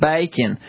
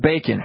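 First: The word is drawn out with a Southern drawl. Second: The word is said plainly without a drawl.

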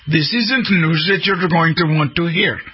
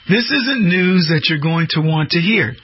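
First: It is spoken in an imitated Indian accent. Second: It is spoken in the speaker's plain accent.

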